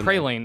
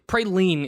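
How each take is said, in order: First: The E vowel is short. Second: The E vowel is long. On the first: The speaker calls it wrong. "praline is weird. Like with the short E" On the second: The speaker calls it right. "Praline is quite nice"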